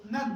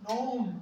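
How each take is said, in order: First: "नन" with one short vowel, like "nun"; compact sound. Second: "नाउन" with a gliding "ow" vowel; wrong open vowel. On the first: Shown as a demonstration. Teacher correcting the student's vowel, compact sound. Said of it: "sound compact हो रही है". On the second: Retold or imitated. Teacher echoing the student's misreading, mispronounced. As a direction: say "नाउन" like the English word noun. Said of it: "इसमें तो ओ है ही नहीं".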